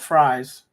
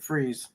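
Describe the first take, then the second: First: The vowel sounds like 'eye'. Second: The vowel sounds like 'ee'. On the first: It follows the spelling. The speaker calls it wrong. "it's spelled fries" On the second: It is how locals say the name. The speaker calls it right. "but you pronounce it freeze"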